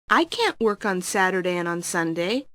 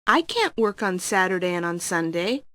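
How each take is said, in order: The two takes are said the same way.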